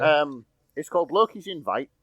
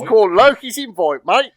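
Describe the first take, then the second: First: Yorkshire accent. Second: Loud, high mock Cockney; bursting into a hammy Cockney; Cockney accent. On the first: Shown as a demonstration. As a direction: own plain Yorkshire voice. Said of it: "I'll try that again in my, uh, usual sort of Yorkshire brogue". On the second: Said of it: "Your inner Cockney tried to break loose".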